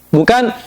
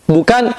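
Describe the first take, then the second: No difference in how they are said.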